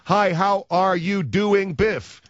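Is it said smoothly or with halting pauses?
halting pauses. It is said haltingly, with pauses between chunks.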